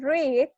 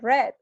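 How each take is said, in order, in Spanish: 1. No se dice como el color red. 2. Se dice como el color red. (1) "En presente es read" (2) "en pasado es red, como el color"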